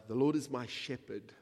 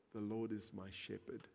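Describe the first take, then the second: First: Louder, declared firmly; proclaimed. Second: Softer, quiet echo of the verse; softly repeated. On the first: Preacher quoting the psalm to the church, louder and bold. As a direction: announce the verse boldly. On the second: Preacher repeating the psalm to himself, softly. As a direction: let it fall gently the second time. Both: Shown as a demonstration.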